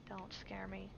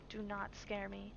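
First: Soft whispered don't scare me; whispered plea. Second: Said in the usual way. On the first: Real, not acted. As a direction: breathe it out nervously. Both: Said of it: "I hate jump scares".

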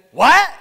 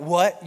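First: Sharp, high, loud "What?"; instant "What?". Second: Said in the usual way. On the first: Retold or imitated. Person who never listens answering, sharp loud "What?". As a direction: snap back "What?" without listening. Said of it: "instantly and automatically respond with".

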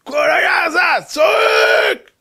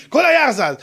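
First: High, drawn-out dramatic cry; wailing shout. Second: Said in the usual way. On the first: Acted. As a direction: stretch it into a slow, high wail. Storyteller acts out the screaming. (צעקה מיללת וממושכת)

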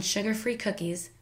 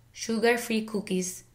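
First: Said in the usual way. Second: Put-on "sugar-free cookies" slowly in a Filipino accent; Filipino-accented "sugar-free cookies", long pure oo vowels. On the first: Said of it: "learning the correct English pronunciation". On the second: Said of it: "with a Filipino accent".

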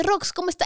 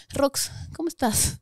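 First: Said in the usual way. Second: Slow, soft, unsure how to greet her; slow and soft awkward hello; awkward hesitant greeting. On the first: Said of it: "llega mi manager y me dice". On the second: Retold or imitated. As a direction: ask it gingerly, not knowing what to say. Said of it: "no sabía disimularlo".

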